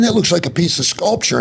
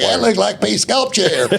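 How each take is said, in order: First: It is said in a plain, neutral accent. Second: It is said in a rural Texas accent.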